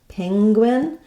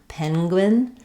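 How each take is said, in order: First: The first syllable ends with an NG sound. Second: The first syllable ends with an N sound. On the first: "with the letter N saying the N G sound" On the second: "with letter N saying the N sound"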